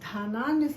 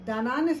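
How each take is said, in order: First: The first consonant is aspirated, with breath. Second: The first consonant is plain, without breath. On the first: The speaker calls it right. "సంపాదిద్దాం" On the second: The speaker calls it wrong. "సంపాదించడం కాదు"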